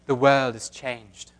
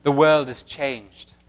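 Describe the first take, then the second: First: Put-on slow, hushed British accent like Galadriel; a light British accent, slow and grave. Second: A hint of a British accent. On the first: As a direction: intone it in a British accent like the elf queen. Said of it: "Should I do my British accent?". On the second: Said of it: "That's also a woman".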